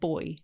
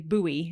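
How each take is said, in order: First: The word is said in a British way. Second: The word is said in an American way. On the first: "instead of boy" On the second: "You know how Americans say buoy"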